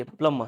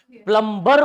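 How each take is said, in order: First: "प्लम्बर" as "plum-uh"; "प्लम्बर" falling away on a short uh; silent b and r. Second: "प्लम्बर" as a full "plum-bar"; loud Hindi-style "प्लम्बर", every letter said; b and r sounded. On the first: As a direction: drop the b and r in "प्लम्बर". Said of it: "बी भी यहाँ पे silent". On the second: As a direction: hit the b and final r in "प्लम्बर". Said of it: "प्लम्बर बोलने में". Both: Shown as a demonstration.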